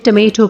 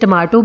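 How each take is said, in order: First: The middle vowel sounds like 'ay'. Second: The middle vowel sounds like 'ah'. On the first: "लेकिन इसे टमेटो कहा जाता है" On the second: "इसे टमाटो भी बोलना ठीक है"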